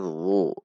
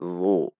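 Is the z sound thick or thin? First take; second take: thick; thick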